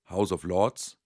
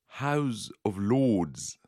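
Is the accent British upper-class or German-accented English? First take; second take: German-accented; British upper-class. First: It is said with a German-sounding English accent. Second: It is said with a posh British English accent. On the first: This is how ordinary local teachers said it. "wie bei den anderen Englischlehrern vor ihm" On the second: This sounds more competent and educated.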